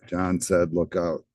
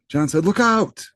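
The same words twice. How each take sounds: First: "Look out" is said flatly, without emphasis. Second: "Look out" is said with strong, urgent emphasis. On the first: The speaker calls it wrong. "it's not like that" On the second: The speaker calls it right. "it sounds emphatic"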